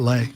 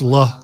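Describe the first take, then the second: First: The vowel sounds like 'ay'. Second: The vowel sounds like 'ah'. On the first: The speaker calls it wrong. "not Lay" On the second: The speaker calls it right. "I believe that's La"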